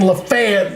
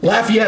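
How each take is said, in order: First: It is pronounced the Alabama way. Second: It is pronounced the Louisiana way. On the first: It names the town in Alabama. The speaker calls it wrong. "that's in Alabama" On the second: It names the town in Louisiana. The speaker calls it right. "I'm at least saying it right"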